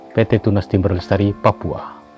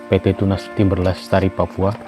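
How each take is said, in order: Both takes have the same delivery.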